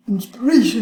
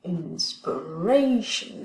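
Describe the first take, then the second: First: « inspiration » plus haut et plus fort, accent appuyé; accent de mot marqué. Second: In-spi-RA-tion, lent, l'accent sur « inspiration »; stress démontré. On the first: (« inspiration » dit plus fort et plus haut) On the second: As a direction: dire « inspiration » lentement en marquant l'accent. (prononcer « inspiration » lentement, accent marqué) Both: Shown as a demonstration. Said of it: "regardons ça".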